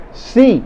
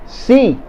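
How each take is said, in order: First: Si again pitched high; a lifted, firm "Si" at the start; emphatic si. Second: Si jumps high above the rest; emphatic si. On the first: Teacher repeating the contradicting si for learners. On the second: Teacher contradicting a negative question with si. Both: Shown as a demonstration. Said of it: "si is used to say yes".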